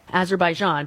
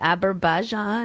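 First: The word is pronounced in its standard form. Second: The word is pronounced in a garbled, mangled form. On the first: The speaker calls it right. "If I read it, I can say it" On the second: The speaker calls it wrong. "But he said"

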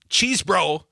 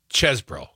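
First: The first vowel is a long 'ee' sound. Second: The first vowel is a short 'e' sound. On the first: The speaker calls it wrong. "It's not cheese bro" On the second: The speaker calls it right. "it's ches bro. ... the E, ease, is like dessert, not desert"

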